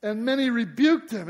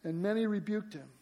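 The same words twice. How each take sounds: First: Loud, punchy first reading with weight on rebuked; preacher booming out the crowd's rebuke, loud and stressed; emphatic retelling. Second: Said in the usual way. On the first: Shown as a demonstration.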